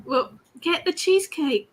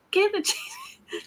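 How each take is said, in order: First: Said in the usual way. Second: Mock drawn-out. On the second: Playful repeat of cheesecake order.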